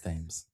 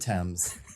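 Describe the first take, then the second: First: It is said unlike the English river's name. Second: It is said like the English river's name. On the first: This is how the person's name is said. The speaker calls it right. "It's Thames" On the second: This is the English river's name. The speaker calls it wrong. "he's not English, it's not the Thames"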